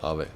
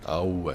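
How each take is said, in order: First: It is said plainly with no extra oo sound. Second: An extra oo sound comes before the v. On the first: The speaker calls it right. "I think it should just be Ave" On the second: The speaker calls it wrong. "in the game they pronounce it almost as if it was A U V E"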